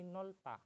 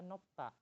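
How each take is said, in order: First: An L sound comes before the last syllable. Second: A P sound comes before the last syllable. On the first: The speaker calls it right. "tapi nolta" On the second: The speaker calls it wrong. "nggak dibaca nopta"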